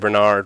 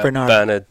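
First: The name is pronounced the American way. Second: The name is pronounced a non-American way. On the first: This is how Americans say the name. "The Americans say Bernard" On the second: This is how the name's owner says it. "but Bernard"

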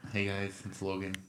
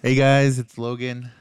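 First: It is said quietly. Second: It is said loudly.

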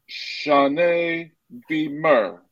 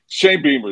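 First: The name is said in a French accent. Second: The name is said in a plain accent.

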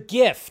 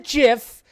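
First: The word starts with a hard G sound. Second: The word starts with a J sound. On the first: The speaker calls it right. "The GIF" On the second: The speaker calls it wrong. "not the GIF"

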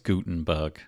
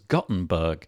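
First: The first vowel is an ooh sound. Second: The first vowel is an oh sound. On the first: The speaker calls it right. "with sort of like a big ooh sound instead of a oh sound" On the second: The speaker calls it wrong. "I thought it was Gutenberg, and apparently it's not"

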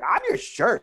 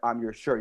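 First: It is said with passion and emphasis. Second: It is said flatly, without feeling.

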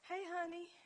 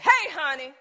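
First: It is said in a warm, sweet tone. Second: It is said in a harsh, angry tone. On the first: She is happy with him. "a woman started out" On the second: He has made her even madder. "Then you make a matter"

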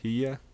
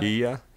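First: The name starts with an H sound. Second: The name starts with an H sound.

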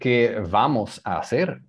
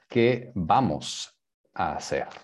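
First: Vamos starts with a buzzing English V sound. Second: Vamos starts with a B sound. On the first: The speaker calls it wrong. "y no" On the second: The speaker calls it right.

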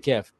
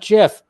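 First: The word begins with a hard G sound. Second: The word begins with a J sound. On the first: The speaker calls it right. "I say GIF" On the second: The speaker calls it wrong. "not GIF. Because Jif is actually a peanut butter"

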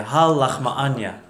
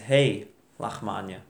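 First: The first word ends in an open 'ah' vowel. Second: The first word ends in an 'ay' vowel. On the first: "we say ha lachma anya" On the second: "It says hey lachma anya"

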